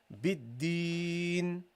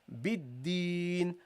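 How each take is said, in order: The two takes are said the same way.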